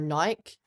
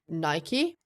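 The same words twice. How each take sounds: First: It uses the Australian pronunciation of the name. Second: It uses the non-Australian pronunciation of the name.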